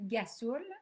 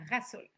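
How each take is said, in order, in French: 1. Le mot commence par un G dur. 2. Le mot commence par un son R. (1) "qui est souvent dit gasoul" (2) "qu'il faut qu'il soit prononcé rasoul"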